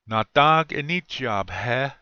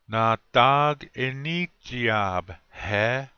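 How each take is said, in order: First: The phrase is said at normal speed. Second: The phrase is said slowly.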